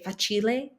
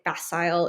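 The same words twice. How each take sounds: First: It is said with an Italian pronunciation. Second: It is said with an American pronunciation. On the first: "So for an Italian pronunciation, I would say facile" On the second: "if you're doing like an American pronunciation"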